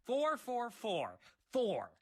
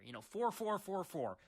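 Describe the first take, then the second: First: Four four four four, each four slow, higher and louder; slow spelled-out fours. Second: Said in the usual way. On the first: Shown as a demonstration. Player waiting for the code, slow loud fours. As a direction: drag out every four, loud and high. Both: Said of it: "This is a freebie right here".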